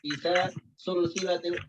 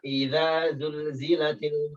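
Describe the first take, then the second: First: The words are said with hissing s sounds. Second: The words are said with buzzing z sounds. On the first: The speaker calls it wrong. "Dia baca apa? Isa sulsilatil" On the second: The speaker calls it right. "harusnya baca idza idza zulzilatil ardu zilzalaha"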